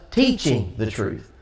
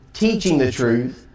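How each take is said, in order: Both takes have the same delivery.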